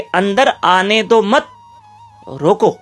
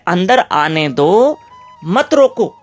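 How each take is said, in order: First: The pause comes after 'mat'. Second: The pause comes after 'do'.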